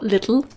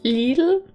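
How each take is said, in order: First: The name sounds like the English word 'little'. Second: The name does not sound like English 'little'. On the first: The speaker calls it wrong. "It's not little" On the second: The speaker calls it right. "That's how you pronounce it"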